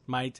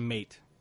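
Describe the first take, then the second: First: It is said with an Australian accent. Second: It is said with an American accent.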